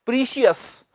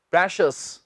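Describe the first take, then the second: First: "प्रीशियस" as pree-shi-us; long "ee" in "प्रीशियस"; "प्रीशियस" in three syllables; common mispronunciation. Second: "प्रेशियस" as presh-us; short "e" in "प्रेशियस"; "प्रेशियस" in two syllables, presh-us; correct pronunciation. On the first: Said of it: "इसका उच्चारण बहुत से लोग". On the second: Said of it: "इसका सही उच्चारण है". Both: Shown as a demonstration.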